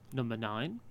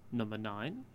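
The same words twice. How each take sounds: First: Said flatly and calmly, like a looped recording. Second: Said flatly and calmly, like a looped recording.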